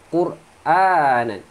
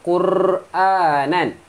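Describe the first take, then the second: First: The r is trilled only briefly and lightly. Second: The r is trilled long and heavily. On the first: The speaker calls it right. "Sekadar je" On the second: The speaker calls it wrong. "Jangan baca Qur'anan"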